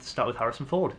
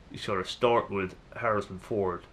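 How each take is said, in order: First: Said in the usual way. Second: Lightly attempted American film-star impression; a hint of a badly faked American star; bad Harrison Ford. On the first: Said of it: "that was a bad impression". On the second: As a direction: have a half-hearted go at a famous American actor's voice. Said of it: "that was a bad impression of Harrison Ford".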